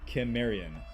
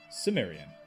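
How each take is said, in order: First: The word begins with a K sound. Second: The word begins with an S sound. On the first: This is the older way of saying it. "the old world way of pronouncing uh, Cimmerian was with a K, K sound" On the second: This is the more recent way of saying it. "more recently, it has been pronounced in the movie's audiobooks with an S sound"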